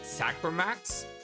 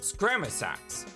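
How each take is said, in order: First: The word begins with 'sack' and ends 'max'. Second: The word begins with 'scram' and ends 'sax'. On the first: The speaker calls it wrong. "I always pronounce it Sacramax" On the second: The speaker calls it right. "It's Scramasax"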